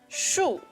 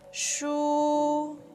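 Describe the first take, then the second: First: The pitch falls through the syllable. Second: The pitch stays high and level. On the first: "It's a falling tone" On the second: "is high and flat"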